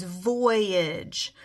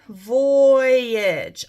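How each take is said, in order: First: Said in the usual way. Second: VOYAGE louder, with a long-held "voy"; stretched out syllables. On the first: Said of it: "My first word is". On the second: Shown as a demonstration. Teacher showing spellers two syllables in voyage, stretched out. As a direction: draw out "Voyage" so both syllables show. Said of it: "I have two syllables".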